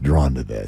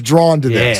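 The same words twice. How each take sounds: First: It is said in a put-on deep voice. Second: It is said in a normal speaking voice.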